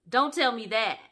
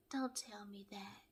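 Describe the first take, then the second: First: Said in the usual way. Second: Very soft whispered reply; imitated whisper. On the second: Paige leaning back to answer Chris, imitated whisper.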